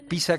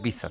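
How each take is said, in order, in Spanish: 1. La consonante del medio suena como s. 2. La consonante del medio no suena como s.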